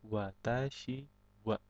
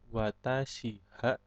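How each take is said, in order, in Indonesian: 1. Partikel ini dilafalkan dengan bunyi w. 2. Partikel ini dilafalkan dengan bunyi h. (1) "tapi watashi wa" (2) "bukan watashi ha"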